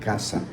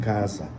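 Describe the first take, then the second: First: It is said with a Spanish accent. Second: It is said with a Brazilian Portuguese accent. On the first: "O espanhol vai, vai ler caça" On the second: "no português você lê a palavra, você vê lá C A S A, você vai falar casa"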